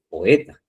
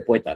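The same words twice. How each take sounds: First: The o and e fall in separate syllables. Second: The o and e merge into one syllable. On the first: The speaker calls it right. "dice poeta" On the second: The speaker calls it wrong. "no dice poeta"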